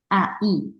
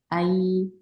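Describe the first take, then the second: First: The two vowels are split into separate sounds. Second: The two vowels glide smoothly into one sound. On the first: The speaker calls it wrong. "이렇게 발음하면 안 돼요" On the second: The speaker calls it right. "이렇게 편안하게 발음이 돼서"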